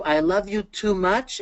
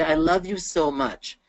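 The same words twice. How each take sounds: First: TOO drawn out and lifted; teacher's pointed, stretched "too"; stress on TOO. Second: SO gently leaned on, slowly; slow "so much" as a lighter example; teacher's measured emphasis on "so"; stress on SO. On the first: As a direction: slowly lean on "too" in a higher voice. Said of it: "than using the word to". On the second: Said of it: "using the word so is a little bit lighter". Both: Shown as a demonstration.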